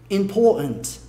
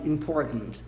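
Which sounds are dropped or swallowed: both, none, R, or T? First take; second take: both; T. First: Both the R and the T are dropped. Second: The T is swallowed in the back of the throat. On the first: "Você come o R e também come o T" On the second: "Uma pronúncia americana bem Nova York... engole"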